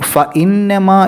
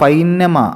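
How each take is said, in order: First: A glottal break separates the two vowels. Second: The vowels glide together into one 'ai' sound. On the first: The speaker calls it right. "ഫ ഇ എന്നാണ്" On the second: The speaker calls it wrong. "എന്നാവരുത്"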